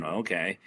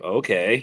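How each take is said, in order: First: Imitating a thirteen-year-old's okay, lower and softer; a shrugging teenage okay, lightly mimicked; mock teen okay. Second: Said in the usual way. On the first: Daughter grudgingly agreeing to play mom, mock teen okay. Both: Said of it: "you know, thirteen-year-old kid".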